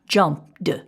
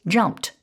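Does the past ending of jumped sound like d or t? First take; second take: d; t. First: The ending is pronounced as a d sound. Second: The ending is pronounced as a t sound. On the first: The speaker calls it wrong. "and not jumped" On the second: The speaker calls it right. "it's jumped"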